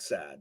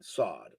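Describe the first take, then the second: First: The vowel sounds like the one in 'sad'. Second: The vowel sounds like the one in 'sod'. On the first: The speaker calls it wrong. "not sad" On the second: The speaker calls it right. "It's sod"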